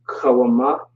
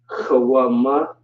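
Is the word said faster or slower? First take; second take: faster; slower. First: The word is said at a quicker pace. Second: The word is said at a slower pace.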